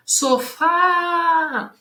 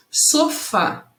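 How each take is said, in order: First: High, long-held final fá in sofá; calling out sofá. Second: Said in the usual way. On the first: Shown as a demonstration. Teacher showing how to find stress, sofá called out long. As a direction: call sofá, stretching the stressed fá. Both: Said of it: "É só chamar a palavra".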